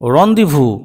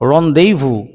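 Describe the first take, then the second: First: The middle vowel is a short 'uh' sound. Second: The middle vowel is an 'ay' sound. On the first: "ই প্রডিউসিস অ sound" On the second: "আবার এই ইটা এইও হতে পারে"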